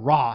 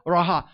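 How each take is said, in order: First: The word is said as one syllable. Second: The word is said as two syllables. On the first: "or Ra, however you pronounce it. There's two ways" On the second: "so I make two syllables out of it"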